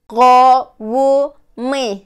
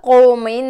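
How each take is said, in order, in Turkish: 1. Yavaş söyleniyor, her parça net biçimde ayrılmış. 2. Hızlı söyleniyor, bir listeye sıkıştırılmış gibi. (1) "Tekrar söylüyorum" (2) "Freni boşalmış kamyon gibi"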